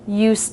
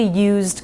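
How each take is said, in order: First: It has an unvoiced S sound and no D. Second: It has a voiced Z sound and a D. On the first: "rather than a Z sound, we just make it an S sound" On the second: "The word used by itself has a Z sound and a D sound"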